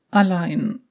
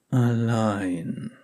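First: High, sad echo of the word Allein; tearful girl voice. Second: Gentle. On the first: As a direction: repeat Allein close to tears. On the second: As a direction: finish her sentence gently. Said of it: "schloss er sanft". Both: Acted.

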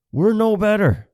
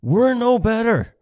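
First: High, loud, weight on "We're"; stern scolding. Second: Slow, high, loud scold. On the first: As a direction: land "We're" hard and high. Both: Retold or imitated. Repeated scolding line.

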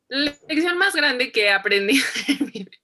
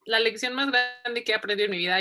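First: Higher, louder, breaking into giggles; laughing. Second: Said in the usual way. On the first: Real, not acted. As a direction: crack up while repeating the question. Cracks up at her pageant answer.

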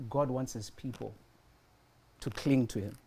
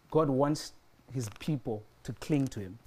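Both takes have the same delivery.

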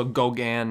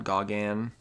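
First: "Gauguin" said go-GAN, with long o; corrected pronunciation. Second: "Gauguin" said gah-GAN, with open ah; mistaken pronunciation. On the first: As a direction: say "Gauguin" with a first syllable like "go". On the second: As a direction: say "Gauguin" wrongly, first syllable like "gah". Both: Shown as a demonstration. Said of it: "not Gauguin".

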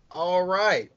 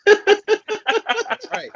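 First: Said in the usual way. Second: Laughing. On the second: Real, not acted. Laughing start to the segment.

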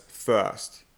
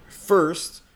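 First: "first" with the R dropped, like "fuhst"; first without the R. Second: "first" with a clearly sounded American R. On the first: Coach imitating the learner's pronunciation, "first" with no R sounded. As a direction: say "first" as a German learner would, no R. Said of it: "you would probably pronounce it as". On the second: Coach modelling the word for a German learner, "first" with a clear R. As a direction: say "first", pronouncing the R fully. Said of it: "you would probably pronounce it". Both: Shown as a demonstration.

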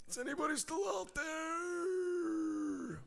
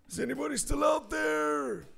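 First: Slow high call that fades; fading echo call. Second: High hopeful call into the void. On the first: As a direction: let it trail off like a distant echo. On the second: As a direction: call out high, hoping for an answer. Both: Pretend. Calling out to silent audience.

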